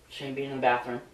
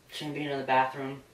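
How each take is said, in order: The two takes are said the same way.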